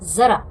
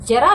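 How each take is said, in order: First: The word begins with a buzzing 'z' sound. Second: The word begins with a 'j' sound. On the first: The speaker calls it right. "थोड़ी सी buzzing की आवाज आती है" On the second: The speaker calls it wrong. "जरा नहीं"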